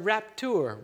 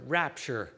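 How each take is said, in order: First: "raptur" sounded out as a Latin word; Latin-style "raptur", t not softened to ch; Latin pronunciation. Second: Said in the usual way. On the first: Shown as a demonstration. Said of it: "in Latin, it's the word". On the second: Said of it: "So there's that word rapture".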